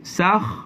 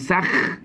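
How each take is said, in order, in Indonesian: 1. Bunyi kha-nya tebal, dibuat jauh di dalam tenggorokan. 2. Bunyi kha-nya tipis, dibuat lebih ke depan. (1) "maka kena tebalkan" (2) "jangan sakh, jangan ke depan"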